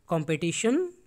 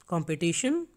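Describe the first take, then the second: No difference in how they are said.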